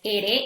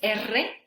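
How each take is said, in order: First: The r is a single quick tap. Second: The r is a long rolled trill.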